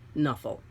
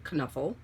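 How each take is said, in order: First: The K at the start is silent. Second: The K at the start is pronounced. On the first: "say it with the K silent" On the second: "say it with the K hard"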